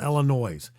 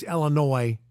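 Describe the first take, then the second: First: The final s is pronounced. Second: The final s is silent. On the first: The speaker calls it wrong. "not Illinois, unless you're talking in the possessive" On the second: The speaker calls it right. "it's Illinois"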